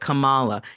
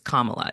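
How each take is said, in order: First: The name is said in an altered form. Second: The name is said in its standard form. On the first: The speaker shows disrespect for the person named. The speaker calls it wrong. "they're just doing everything they possibly can to show that I do not care" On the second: The speaker respects the person named. The speaker calls it right. "It's Kamala. It's not that difficult"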